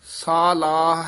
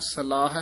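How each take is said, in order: First: The first vowel is long. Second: The first vowel is short. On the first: The speaker calls it right. "ਸਾਲਾਹ ਹੈ" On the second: The speaker calls it wrong. "ਸਲਾਹ ਹੈ ਨਹੀਂ ਕਹਿਣਾ"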